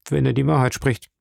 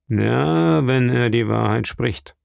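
First: Said in the usual way. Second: Drawn-out, sceptical echo; doubtful. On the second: A narrator's reading. Patron answers the sailor about the castaway, doubtful. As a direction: repeat it slowly with reservations. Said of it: "mit einer Miene des Zweifels".

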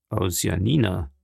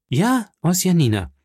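First: Understated, low puzzled query; puzzled echo. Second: High, emphatic JA, falling after; insistent confirmation. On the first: Journalist echoing his friend's claim, mildly puzzled. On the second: Offended visitor confirms to the journalist, insistent. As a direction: hit 'Ja' high and confirm impatiently. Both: Acted.

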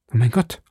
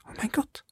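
First: Said in the usual way. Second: "oh mein Gott" whispered, breathless, no voice; stammered whisper. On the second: A narrator's reading. Frightened maid Cathy whispering "oh mein Gott" in the dark. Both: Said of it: "stammelte Cathy".

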